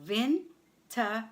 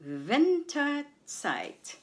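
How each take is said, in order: First: "Winterzeit" broken as Win, ter, zeit with pauses; syllable by syllable. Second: Said in the usual way. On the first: Shown as a demonstration. Teacher breaks the German word down for learners, syllable by syllable. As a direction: separate each syllable of "Winterzeit" clearly.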